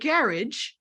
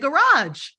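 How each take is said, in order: First: The word is said without a French-sounding ending. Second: The word is said with a French-sounding ending. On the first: This is how the other person says it. "You say garage" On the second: This is how the speaker personally says it. "I say garage. Sounds French to me"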